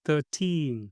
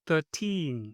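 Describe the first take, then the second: The two takes are said the same way.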